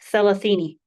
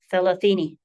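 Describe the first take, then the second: First: The word begins with a th sound. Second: The word begins with a th sound.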